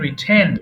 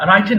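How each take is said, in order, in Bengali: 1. প্রথম স্বরধ্বনিটির উচ্চারণ 'ih'-র মতো। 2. প্রথম স্বরধ্বনিটির উচ্চারণ 'eye'-র মতো। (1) "উচ্চারণ হবে রিটেন" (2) "রাইটেন না"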